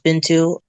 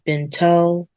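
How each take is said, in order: First: The name ends with an 'oo' sound. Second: The name ends with an 'oh' sound. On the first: The speaker calls it right. "my actual name is pronounced Bintou" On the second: The speaker calls it wrong. "a lot of people mispronounce it. They usually say Binto"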